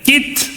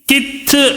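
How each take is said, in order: First: The final consonant ends plainly without a bounce. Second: The final consonant ends with an echoing bounce. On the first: The speaker calls it right. "कित बस" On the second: The speaker calls it wrong. "कित नहीं"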